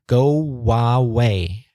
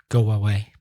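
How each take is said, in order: First: The linking w sound is strongly exaggerated. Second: The linking w sound is light and natural.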